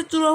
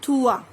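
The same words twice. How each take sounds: First: थ्रुआ with a th sound; wrong trois. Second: थुआ like French trwa; French trois. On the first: Teacher mimicking students' wrong trois. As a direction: say थ्रुआ with English thr. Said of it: "थ्रुआ wrong होता है". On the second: Teacher modelling correct trois. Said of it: "थुआ बोलते हैं". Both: Shown as a demonstration.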